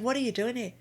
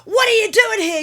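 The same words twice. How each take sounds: First: It is said in a calm tone. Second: It is said in an angry tone.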